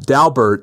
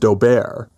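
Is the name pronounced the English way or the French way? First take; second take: English; French. First: The name is given an English pronunciation. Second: The name is given a French pronunciation. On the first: This is how the judge said it instead. The speaker calls it wrong. "he called it Daubert" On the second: This is how the party wanted it said. The speaker calls it right. "pronounced in the French as Daubert"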